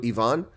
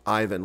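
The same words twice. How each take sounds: First: The name has a Russian or German pronunciation. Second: The name has an American pronunciation. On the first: "like Russians and Germans do" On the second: "like Americans do"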